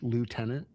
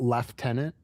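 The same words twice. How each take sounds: First: It is said with an American pronunciation. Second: It is said with a British pronunciation. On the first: "if you're American" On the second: "if you're English"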